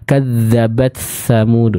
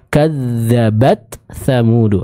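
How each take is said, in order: First: The t sound is blurred into the next word. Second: The t sound is pronounced clearly and distinctly. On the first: The speaker calls it wrong. "kadzabat samudu ini kurang tepat" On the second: The speaker calls it right. "Ta sukunnya dulu dibaca dengan jelas"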